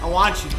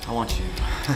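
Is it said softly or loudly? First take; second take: loudly; softly. First: It is said loudly. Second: It is said softly.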